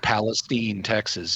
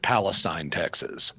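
First: Palestine is said the local Texas way. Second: Palestine is said the usual standard way.

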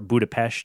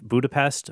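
First: It is pronounced the local Hungarian way. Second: It is pronounced the usual English way.

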